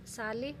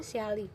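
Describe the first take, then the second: First: Said in the usual way. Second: स्याली said as "syaa-li", a y glide after the s; स्याली with a clear y sound after s; Garhwali pronunciation. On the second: Shown as a demonstration. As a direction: stretch स्याली into three beats, sy-aa-li. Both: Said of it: "स्याली नहीं बोलते".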